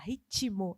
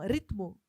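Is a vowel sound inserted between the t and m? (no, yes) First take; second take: yes; no. First: An extra i vowel is heard after t. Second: No vowel is heard between t and m. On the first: This is how it is said in Brazil. "a gente fala ritmo, ... mesmo não tendo aquele i ali, a gente faz questão de pronunciar" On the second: This is how it is said in Portugal. "eles falariam ritmo, português de Portugal"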